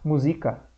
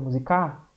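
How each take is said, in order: First: The stress is on the second syllable. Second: The stress is on the last syllable. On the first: "mas não é o Z o mais forte? Não, porque ia ficar música" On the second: "não é o K o mais forte? Não, ele fica musicar"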